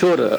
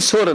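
First: The word begins with an sh sound. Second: The word begins with a plain s sound. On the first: This is the standard, refined form. "ನಮ್ಮ ಶುದ್ಧವಾದ ಶಿಷ್ಟವಾದ ಭಾಷೆಯಲ್ಲಿ ಶೋರ್" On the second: This is the folk dialect form. "ಅವನ ಜನಪದೀಯ ಭಾಷೆಯಲ್ಲಿ ಸೋರ್ ಅಂತಾನೆ ಅವನು"

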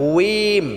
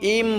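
First: The ending is said with a w glide. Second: The ending is said without a w glide. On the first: The speaker calls it right. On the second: The speaker calls it wrong.

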